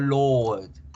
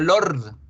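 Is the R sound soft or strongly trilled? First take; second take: soft; trilled. First: The vowel is long and the R soft. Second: The R is strongly trilled. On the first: The speaker calls it right. "decimos Lord" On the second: The speaker calls it wrong. "No decimos el Señor de los Anillos fuerte, no decimos Lord"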